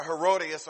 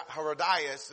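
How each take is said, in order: First: Herodias said "heh-ROH-dee-us"; first pronunciation. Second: Herodias said "heh-roh-DYE-us"; alternate pronunciation. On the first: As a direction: say Herodias with an "ee" before the last syllable. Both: Shown as a demonstration. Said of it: "as some people pronounce it".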